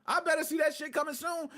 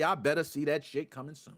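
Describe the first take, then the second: First: Better hit high and hard; higher, insistent repeat; stress on better. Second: Said in the usual way. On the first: Shown as a demonstration. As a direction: lean into "better" the second time. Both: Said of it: "repeated with more force".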